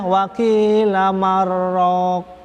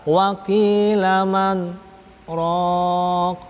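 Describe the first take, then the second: First: The n merges into the r without pause. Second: A brief pause separates man from raq. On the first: The speaker calls it wrong. "Kalau kalau nggak tahu di situ ada sakta, nanti dibacanya" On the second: The speaker calls it right. "padahal di situ aja sakta"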